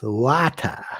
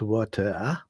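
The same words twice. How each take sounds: First: The word is pronounced in an odd, distorted way. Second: The word is pronounced in the ordinary way. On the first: "they pronounce them in a most odd way" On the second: "it's not water"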